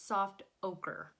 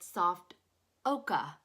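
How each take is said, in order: First: It is said without a British accent. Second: It is said in a British accent. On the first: "on the regular dictionary without an accent" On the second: "they were pronouncing it soft oka ... on the British Dictionary"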